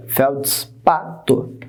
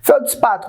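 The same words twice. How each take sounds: First: "feldspato" very slowly as felds, pa, to; separado em sílabas. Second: Said in the usual way. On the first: Shown as a demonstration. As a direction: break "feldspato" into felds, pa, to with gaps. ("feldspato" bem devagar, sílaba por sílaba) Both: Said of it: "como é que separa?".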